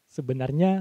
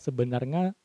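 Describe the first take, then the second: First: The word is said with an 'ny' sound. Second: The word is said with an 'ng' sound. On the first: The speaker calls it right. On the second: The speaker calls it wrong.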